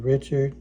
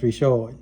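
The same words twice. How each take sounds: First: The name is said the standard English way. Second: The name is said the Cajun French way.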